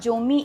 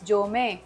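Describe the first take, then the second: First: The word ends in an 'ee' vowel. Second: The word ends in an 'ay' vowel. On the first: The speaker calls it wrong. "It's not जोमी" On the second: The speaker calls it right. "It's जोमे"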